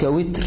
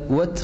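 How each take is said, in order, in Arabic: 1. الحركة الأولى كسرة. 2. الحركة الأولى ضمة. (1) "لكن الأصح قولك وتر" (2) "ويجاز القول أن تقول وتر"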